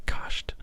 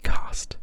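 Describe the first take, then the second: First: "cast" said as "kahsht", open a and German sh before the t; German pronunciation. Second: "cast" with a clean English s-t and a flat a; English pronunciation. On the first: Showing viewers the German way, whispered "cast" with German sht. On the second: Showing viewers the English way, whispered "cast" with English st. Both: Shown as a demonstration. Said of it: "I overpronounce the st as st, as in".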